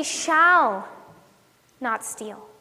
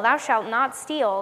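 First: "shall" stressed, letting "not steal" drop away. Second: "not" pressed in "thou shalt not steal"; slow, low commandment with weight on "not"; stress on NOT. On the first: Shown as a demonstration. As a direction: lean on "shall" as a promise. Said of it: "putting the emphasis on the wrong word". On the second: Retold or imitated. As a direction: recite it as a forbidding rule, leaning on "not". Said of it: "you're putting the emphasis on the wrong".

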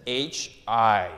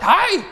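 First: Said in the usual way. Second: Squealed hi, much higher and louder; excited hi. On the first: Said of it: "that was high. emotionless". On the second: Shown as a demonstration. Pastor acting out an excited texted hi, high excited squeal. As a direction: burst out a thrilled greeting. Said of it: "You're excited".

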